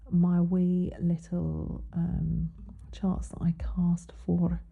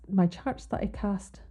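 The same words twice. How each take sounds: First: Slow, whispered, badly faked Scottish accent; a breathy attempt at a Scottish lilt; a failed stab at a Scottish accent, whispered slowly. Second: Said in the usual way. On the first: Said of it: "I do the worst Scottish accent". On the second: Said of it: "That was actually supposed to be Scottish".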